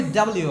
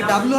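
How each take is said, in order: First: "ডাব্লিউ" ending on a clear "yu" glide; three-part W. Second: "ডাব্লিউ" with no "yu" glide, as "dablu"; two-syllable W. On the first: Teacher offers students a choice, "ডাব্লিউ" as full "double-you". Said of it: "নাকি ডাব্লিউ হবে নাকি". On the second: Teacher offers students a choice, "ডাব্লিউ" shortened to "dablu". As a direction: say "ডাব্লিউ" squashed into "dab-lu". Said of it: "নাকি ডাব্লিউ হবে". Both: Shown as a demonstration.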